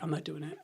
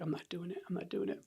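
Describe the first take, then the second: First: Said in the usual way. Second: Whispering. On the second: Retold or imitated. Retold refusal, whispered.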